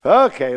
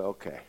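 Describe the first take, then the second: First: Loud burst, falling at the end; emphatic concession. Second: Low, soft acceptance; subdued concession. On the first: Man admitting to the Lord he was right, emphatic concession. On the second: Man yielding as peace comes over him, subdued concession. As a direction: give in quietly. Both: Acted.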